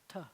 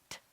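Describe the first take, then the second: First: A heavy t with the whole tongue on the roof. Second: A light t with the tongue tip behind the teeth. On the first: "you take your tongue and you splat it on the roof of your mouth" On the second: "dainty tet"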